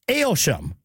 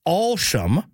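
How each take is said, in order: First: "Aylsham" said with an AYL first syllable, like "ale"; British pronunciation. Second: "Alsham" said with an open AWL first syllable; village pronunciation. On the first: Host shows how Brits say the town's name, British pronunciation. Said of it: "while the Brits say". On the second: Host shows how villagers say the town's name, local pronunciation. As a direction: say "Alsham" as locals do, starting like "all". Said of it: "people in the village I've heard from say". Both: Shown as a demonstration.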